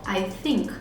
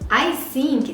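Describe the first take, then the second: First: Think begins with a soft th sound. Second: Think begins with a hissing s sound. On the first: The speaker calls it right. "colocar a língua atrás dos dentes" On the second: The speaker calls it wrong. "think é pia. Olha como mudou o som"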